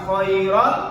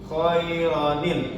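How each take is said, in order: First: It links straight to l with no n sound. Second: An n sound links it to the l. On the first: The speaker calls it wrong. "bukan khairal" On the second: The speaker calls it right. "tapi khoi khairanil. Ada nun waqayanya"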